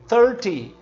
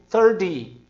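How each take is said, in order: First: The middle consonant is a clear T. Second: The middle consonant sounds like a D. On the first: "em vez de dizer" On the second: "Som de D"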